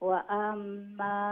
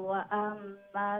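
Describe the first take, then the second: No difference in how they are said.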